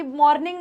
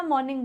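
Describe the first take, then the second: First: मॉर्निंग with the r sounded; मॉर्निंग with an audible r before the n; wrong pronunciation. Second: मॉर्निंग with a silent r; मॉर्निंग said softly as "maw-ning"; correct pronunciation. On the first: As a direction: let the r be heard in मॉर्निंग. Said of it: "मॉर्निंग नहीं बोलना". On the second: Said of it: "मॉर्निंग बोलना है". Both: Shown as a demonstration.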